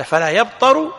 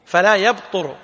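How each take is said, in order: First: يبطر said yabtaru, with a on the ta; louder correction, يبطر with fatha on the ta; corrective vowelling. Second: يبطر said yabturu, with u on the ta; damma on ta. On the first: (نطق يبطر بفتح الطاء) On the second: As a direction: model يبطر clearly with damma on the ta. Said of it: "لا يبطر بضم الطاء". (نطق يبطر بضم الطاء) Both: Shown as a demonstration.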